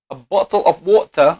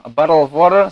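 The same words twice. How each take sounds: First: British accent, rounded o in bottle. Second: American accent, flapped t in bottle. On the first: Lecturer showing students a British accent. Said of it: "we have the two accent, English or British accent". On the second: Lecturer contrasting with an American accent. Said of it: "and American accent". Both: Shown as a demonstration.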